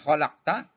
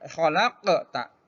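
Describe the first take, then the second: First: The q sound is closed without any echo. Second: The q sound has a bouncing echo. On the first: The speaker calls it wrong. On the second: The speaker calls it right.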